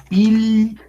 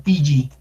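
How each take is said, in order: First: Pili as pil, pause, li; held double L. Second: Pili with the ll as a Spanish y or j, piyi; wrong Spanish double L. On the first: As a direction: hold the L in pili and then release it. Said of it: "sino se pronuncia pili". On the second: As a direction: misread pili as pee-jee. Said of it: "no se pronuncia pili". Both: Shown as a demonstration.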